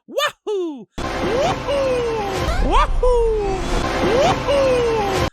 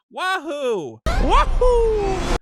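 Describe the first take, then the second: First: High, loud, full-throated Mario cheers; energetic Mario wahoo. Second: High, far-off imitation of a limp Mario cry, the second one louder; mock the trailer's weak Mario cheer; flat Mario wahoo. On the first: Retold or imitated. Showing the movie's re-recorded Mario cheer, high and loud. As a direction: belt each wahoo like Mario flying. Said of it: "he really goes". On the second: Imitating the trailer's flat Mario cheer, much higher. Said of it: "he went".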